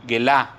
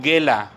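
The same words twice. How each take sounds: First: "gelá" with the stress on the last syllable, A; "gelá" said ge-LA with the final A stressed. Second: Said in the usual way. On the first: Shown as a demonstration. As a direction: say "gelá" with the accent landing on the final a. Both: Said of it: "con acento en la A".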